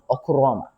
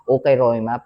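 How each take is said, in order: First: The second syllable sounds like 'ku'. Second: The second syllable sounds like 'kai'. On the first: It is the accepted way to say the word. The speaker calls it right. "the pronunciation is Okuroma" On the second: It is read letter by letter as written. The speaker calls it wrong. "if you read it outright"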